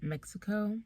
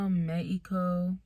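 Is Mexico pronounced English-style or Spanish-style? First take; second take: English-style; Spanish-style. First: The name is said with a plain English pronunciation. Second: The name is said with a Spanish-style pronunciation.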